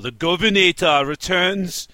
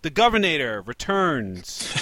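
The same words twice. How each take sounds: First: It is said in a put-on imitation accent. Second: It is said in the speaker's natural accent. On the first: The speaker calls it wrong. "that accent, because that was bad" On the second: The speaker calls it right. "I'm glad you decided to switch out of that accent"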